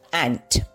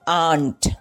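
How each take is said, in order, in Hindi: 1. स्वर एक छोटी आगे की 'a/eh' ध्वनि है। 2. स्वर एक लंबी खुली 'ah' ध्वनि है। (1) "it is एंट" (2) "some people might pronounce it as आंट, but it is not आंट"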